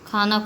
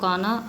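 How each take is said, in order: First: The first consonant has a breathy puff. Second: The first consonant has no breathy puff. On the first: The speaker calls it right. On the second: The speaker calls it wrong.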